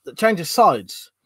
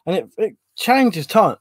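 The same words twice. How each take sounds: First: It changes sides, said slowly with weight on "sides"; slow down and lean on "sides"; slow correction. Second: Said in the usual way. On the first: Real, not acted. Correcting his slip about stomach pain, slow, leaning on "sides".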